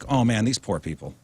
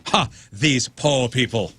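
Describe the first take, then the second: First: It sounds warm and sympathetic. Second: It sounds mocking and contemptuous.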